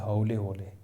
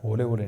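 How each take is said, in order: First: हौले होले with au in the first word; correct pronunciation. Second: होले होले with a closed o; wrong pronunciation. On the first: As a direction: open हौले into a wide au. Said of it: "औ की मात्रा". (हौले में साफ़ औ) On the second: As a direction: keep both vowels of होले होले as o. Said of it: "होले होले नहीं". (होले होले में गलत ओ) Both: Shown as a demonstration.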